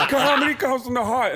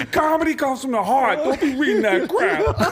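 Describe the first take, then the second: First: Much higher, laughing put-on voice; Tracy Morgan impression again. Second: Much higher, laughing put-on voice; Tracy Morgan impression. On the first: Comic repeating Tracy Morgan's line to the hosts. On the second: Tracy Morgan scolding the kid with the notebook. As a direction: preach it like Tracy lecturing a kid. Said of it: "He goes".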